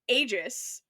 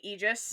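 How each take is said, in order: First: Every written letter, including the A, is sounded. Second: The A is not sounded as its own vowel. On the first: The speaker calls it wrong. "I was pronouncing all the letters that are there" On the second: The speaker calls it right. "It's apparently Aegis"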